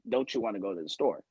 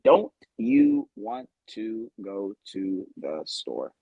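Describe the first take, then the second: First: The words run together with reduced sounds. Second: Each word is said fully and separately.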